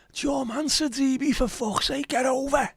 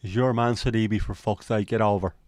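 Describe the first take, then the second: First: High-pitched Scouse terrace yell; Scouse football shout, pitched right up in exasperation; rabid frustrated Evertonian. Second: Irish football grumble; put-on Irish lilt at near-normal pitch; Irish accent. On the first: Acted. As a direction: yell like a rabid fan from the stands. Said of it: "things do sound better in rabid, frustrated Evertonian". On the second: Shown as a demonstration. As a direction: say it as an Irish fan would. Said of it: "The Sidibe line in an Irish accent".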